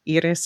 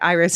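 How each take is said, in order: First: The name is pronounced the French way. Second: The name is pronounced the English way. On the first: "or Iris, I suppose" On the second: "Iris in English for sure"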